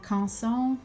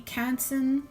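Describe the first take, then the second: First: The name is said with French sounds. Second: The name is said with English sounds.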